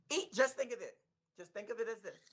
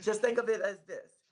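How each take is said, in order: First: Slight lisp, retainers in. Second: Slight lisp, retainers in; a retainer lisp on every s. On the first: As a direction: talk through a retainer lisp. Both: Real, not acted. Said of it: "so I'm kinda lisping".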